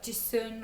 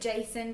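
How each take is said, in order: First: The name is said with a short second syllable, Jisun. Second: The name is said like the English name Jason. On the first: This is the speaker's guess at the real pronunciation. The speaker calls it right. "it's probably like Jisun or something like that" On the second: This is how the speaker is tempted to say it. The speaker calls it wrong. "I want to call it Jason"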